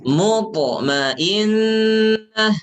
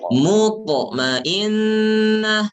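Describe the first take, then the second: No difference in how they are said.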